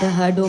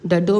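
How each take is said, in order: First: It is said with an added h sound. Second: It is said without any h sound. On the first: "डहडो में आ गया" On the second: "डडो में नहीं आया"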